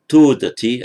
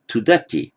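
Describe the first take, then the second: First: Todati with a loud, long TO; stress on first syllable. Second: Tudati with short TU, stressed DA; stress moved to ending. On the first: Teacher giving the hypothetical form, first-syllable stress on todati. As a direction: hit the opening "to" of todati. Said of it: "If this were a first class verb". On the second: Teacher showing a sixth-class verb, later stress on tudati. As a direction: skip lightly over "tu" and land on "da" in tudati. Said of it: "the stress moves to the ending". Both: Shown as a demonstration.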